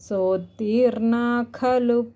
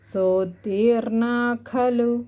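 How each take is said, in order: The two takes are said the same way.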